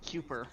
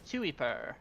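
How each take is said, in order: First: The first syllable sounds like 'koo'. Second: The first syllable sounds like 'kye'. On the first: The speaker calls it wrong. "I want to pronounce it Kuper" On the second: The speaker calls it right. "I think it is actually called uh, pronounced Kuiper"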